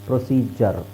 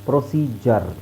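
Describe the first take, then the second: The two takes are said the same way.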